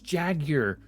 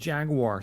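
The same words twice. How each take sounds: First: It is said the British way, without a w-sound. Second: It is said the American way, with a w-sound. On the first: The speaker calls it right. "it's Jaguar" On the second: The speaker calls it wrong. "not Jaguar. Stop using the American pronunciation"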